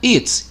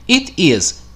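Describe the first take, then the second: First: It is said as one short contracted word. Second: It is said as two full separate words.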